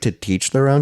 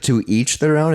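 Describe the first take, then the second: First: The t sound runs on, making teach. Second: The words to and each stay separate. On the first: The speaker calls it wrong. "it's like to teach their own" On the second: The speaker calls it right. "instead of to each their own"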